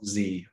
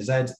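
First: It is said the American way, as zee. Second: It is said the British way, as zed.

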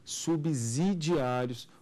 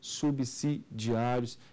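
First: The s is pronounced as a z sound. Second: The s is pronounced as an s sound. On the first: The speaker calls it wrong. "e não subsidiários, como é muito comum muitos colegas falarem" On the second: The speaker calls it right. "repito, subsidiários"

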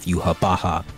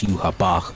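First: The name ends with an open 'ha' syllable. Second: The name ends with a closed 'bach' sound. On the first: This is the original Japanese pronunciation. "And the Japanese, they have Yuhabaha" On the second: This is how English speakers pronounce it. "The people in the English, they say it's Yuhabach because the B-A-C-H is like Bach"

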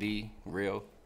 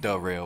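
First: The word 'the' is pronounced clearly and fully. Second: The word 'the' is pronounced loosely and reduced. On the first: The speaker calls it right. "I enunciate" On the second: The speaker calls it wrong. "Not like The Real"

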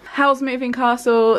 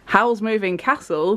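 First: It is said in a southern English accent. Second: It is said in a northern English accent. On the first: The speaker calls it wrong. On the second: The speaker calls it right.

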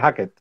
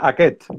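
First: The stress is on the first syllable. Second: The stress is on the second syllable. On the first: This is how everyone ended up saying the name. "nadie en la vida me lo ha dicho con el acento en la E. Así que es Aket" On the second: This is how the name was first intended. "en un principio era Aket"

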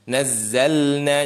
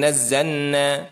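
First: The l is pronounced clearly before the n. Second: The l is swallowed into the following n. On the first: The speaker calls it right. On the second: The speaker calls it wrong.

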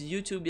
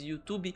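First: It is said with an American English pronunciation. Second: It is said with a Brazilian Portuguese pronunciation. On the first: "eu falo na pronúncia americana" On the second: "na pronúncia que todo mundo tá acostumado aqui no Brasil"

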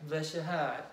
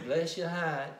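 No difference in how they are said.

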